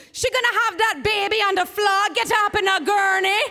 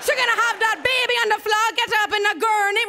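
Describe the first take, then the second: First: Put-on nurse with a high, loud island accent; urgent island nurse taking charge; Caribbean accent. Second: Put-on quick high island accent repeat; Caribbean accent, faster. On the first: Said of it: "she's from the islands". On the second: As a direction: rush the island-accent orders. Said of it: "here comes my accent".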